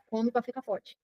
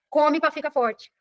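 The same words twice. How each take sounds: First: Soft, distant quoted advice; quoting a grown-up's advice. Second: Drawn out, each word spaced; slow repeated advice. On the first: Retold or imitated. A childhood adult telling a child, softly quoted. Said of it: "alguém falou pra ela". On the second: Shown as a demonstration. Teacher repeating the family rule to students, slowly. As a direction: spell out the old rule slowly. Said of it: "Tá doente?".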